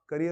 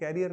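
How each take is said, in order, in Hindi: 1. पहला अक्षर एक छोटा 'kuh' है। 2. पहला अक्षर 'carry' जैसा सुनाई देता है। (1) "करियर होता है वो" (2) "तो वो कैरियर नहीं होता"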